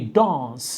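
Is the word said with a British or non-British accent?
British. The word is said in a British accent. "you can say dance"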